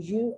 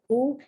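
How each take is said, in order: First: The letter is named with a 'yoo' sound. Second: The letter is named with a plain 'oo' sound. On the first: "In English" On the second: "in Spanish"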